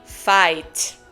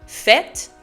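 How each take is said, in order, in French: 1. Il est prononcé avec un accent québécois. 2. Il est prononcé avec un accent français standard.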